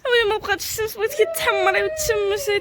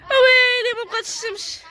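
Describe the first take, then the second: First: Milder mock lament. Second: Mock lament. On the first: Repeats lament softer. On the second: Laments sun is gone.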